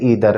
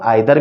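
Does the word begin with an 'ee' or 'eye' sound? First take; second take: ee; eye. First: The first vowel sounds like 'ee'. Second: The first vowel sounds like 'eye'. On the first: "या फिर इधर" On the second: "इसकी pronunciation जो है वो हम आइदर भी पढ़ सकते हैं"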